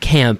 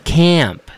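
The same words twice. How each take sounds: First: The vowel is short and clipped. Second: The vowel is drawn out and longer. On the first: The speaker calls it wrong. "It's not Camp" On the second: The speaker calls it right. "it's Camp. There's two A's"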